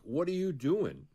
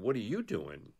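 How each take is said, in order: First: Raised, slow, mock challenging bully; bullies' challenge. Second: Said in the usual way. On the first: School bullies demanding an answer from the kid, mock challenging. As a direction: bullies in the hallway confront him, slow and higher. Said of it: "they were all like". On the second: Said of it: "And I was like".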